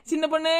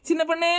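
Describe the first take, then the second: No difference in how they are said.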